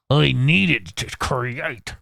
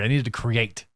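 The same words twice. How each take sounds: First: Very slow, hammed-up put-on voice; exaggerated drawn-out character repeat. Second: Said in the usual way. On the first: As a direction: stretch every word theatrically. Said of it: "you're getting my voices".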